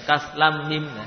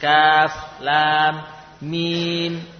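First: The vowels in the names are cut short. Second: The vowels in the names are held long. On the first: The speaker calls it wrong. "bukan kaf lam mim" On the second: The speaker calls it right. "Jadi panjang ya"

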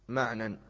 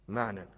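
No difference in how they are said.

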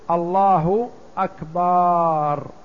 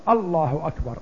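First: The final syllable's vowel is drawn out long. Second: No vowel is drawn out unusually long. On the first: It turns the word into a plural meaning drums. The speaker calls it wrong. "يمد الباء ويأتي بألف بعدها" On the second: It firmly states that God is greatest. The speaker calls it right. "فتقول الله أكبر"

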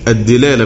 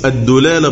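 First: The first d is followed by an i vowel. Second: The first d is followed by a u vowel. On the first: "بالكسر" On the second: "بالضم"

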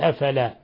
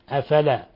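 First: The long vowel is held for its full length. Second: The long vowel is clipped short. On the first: The speaker calls it right. "بدل ما يقول أفلا" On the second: The speaker calls it wrong. "لا يعطيها حقها من المد الطبيعي"

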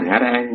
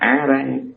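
First: The first syllable begins with an h sound. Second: The first syllable begins with a vowel. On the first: The chant is misread as open the mouth and eat. The speaker calls it wrong. "bà niệm lộn rồi" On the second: The chant is read as the proper sacred name. The speaker calls it right. "mà là á ra ăn"

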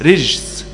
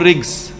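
First: The first consonant is a soft 'j' sound. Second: The first consonant is a hard 'g' sound. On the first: "الجيم المعطشة تقول رجس" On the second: "الجيم المش معطشة تقول رجس"

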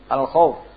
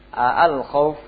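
First: The opening vowel is short. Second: The opening vowel is drawn out long. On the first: It is a statement: the fear. "Khabar sini" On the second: It is a question: is it the fear? "Jadi di sini istifham"

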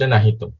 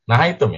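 First: The syllable before -tum has a plain 'i' vowel. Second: The syllable before -tum has an 'ai' diphthong. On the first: The speaker calls it wrong. "Tadi dibaca nahitum" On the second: The speaker calls it right. "Nahaitum, ya"

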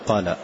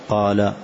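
First: The long vowel is not held two counts. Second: The long vowel is held for two counts. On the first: The speaker calls it wrong. "ولا تقول قال" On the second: The speaker calls it right. "وإنما مدا طبيعيا كما هو"

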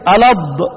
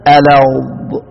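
First: The consonant is stopped abruptly, like a d. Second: The consonant is drawn out with continuing sound. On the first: The speaker calls it wrong. "الض بتاعتنا احنا ايه؟ اي الض برضو شديدة" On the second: The speaker calls it right. "تعال طلعها صح بقى"

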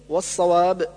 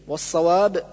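The two takes are said the same way.

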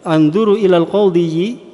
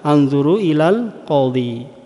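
First: The word qadhi ends with an extra -yi syllable. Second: The word qadhi ends without any extra syllable. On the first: The speaker calls it wrong. "ini berat sekali" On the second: The speaker calls it right. "sehingga dibaca anzuru ilal qadhi"

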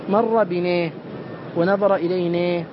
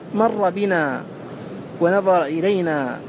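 First: The final vowels lean toward an e sound. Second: The final vowels are plain open a sounds.

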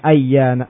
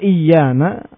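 First: The word begins with an 'a' vowel. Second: The word begins with an 'i' vowel. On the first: "Dengan fathah pada hamzanya" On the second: "dan mengkasru hamzahnya iyana adalah bahasanya Bani Sulaim"

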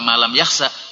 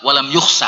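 First: The verb's first vowel is an a sound. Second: The verb's first vowel is a u sound. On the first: The dawn is the object of the verb. The speaker calls it wrong. "nek dibaca diwaca malam yakhsa niku mangke tulu'a" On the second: The dawn is the subject of the verb. The speaker calls it right. "sing tepat walam yukhsa"

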